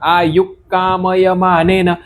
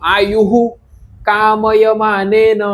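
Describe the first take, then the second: First: Aayu is said with no added hu sound. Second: Aayu is followed by an added hu sound. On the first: The speaker calls it right. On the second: The speaker calls it wrong.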